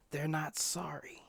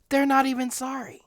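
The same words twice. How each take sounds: First: Breathy whisper of disbelief; soft whispered aside. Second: Outraged exclamation. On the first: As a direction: hush it, almost to yourself. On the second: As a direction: throw it out in outrage. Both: Shown as a demonstration.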